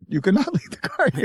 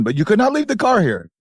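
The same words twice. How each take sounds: First: Laughing through the hotelier impression; mock accent, laughing. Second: Put-on high, insistent Indian-accented hotel owner; hammed-up Indian hotelier, pitched high; mock Indian accent. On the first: Hotel owner repeating his refusal, mock accent cracking into laughter. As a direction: repeat the Indian-accented line high, breaking into a laugh. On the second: Hotel owner refusing to keep the stranded car, mock Indian accent. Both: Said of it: "He kept saying that".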